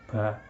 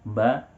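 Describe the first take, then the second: First: The syllable is said with a lot of breath. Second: The syllable is said clearly with little breath. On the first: The speaker calls it wrong. "kita tidak membaca dengan tambahan banyak nafas, seperti ya" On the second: The speaker calls it right. "sedikit nafas yang keluar dan jelas"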